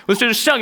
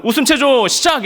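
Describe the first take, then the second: First: High shouted order; mock officer barking the start; drill command. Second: Much higher, louder officer's shout; shouted mock order to start laughing; drill command. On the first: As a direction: call it out like an officer.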